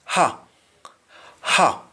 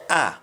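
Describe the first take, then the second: First: "Ha" with a clearly breathed H at the start; H sounded. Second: "a" for her, starting straight on the open vowel; Jamaican dropped H. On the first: Teacher showing learners the English H, H sounded. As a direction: pronounce the H in "Ha". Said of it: "accent for H". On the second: Teacher showing how Jamaicans say her, H dropped. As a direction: drop the H so her becomes "a". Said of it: "instead of her, we say". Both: Shown as a demonstration.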